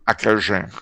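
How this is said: The d is pronounced like a j.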